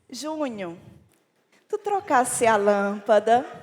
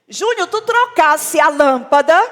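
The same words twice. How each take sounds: First: The question sounds warm and loving. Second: The question sounds cold and unaffectionate.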